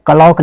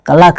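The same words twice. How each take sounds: First: क्लॉक as "ka-lauk"; wrong pronunciation. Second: क्लॉक as "ka-lak"; correct pronunciation. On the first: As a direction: lengthen the second vowel of क्लॉक to "au". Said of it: "एक क्लॉक नहीं है". (क्लॉक को "कलौक" जैसा बोलें) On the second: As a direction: keep the second vowel of क्लॉक a short "a". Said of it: "एक क्लॉक है". (क्लॉक को "कलक" जैसा बोलें) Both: Shown as a demonstration.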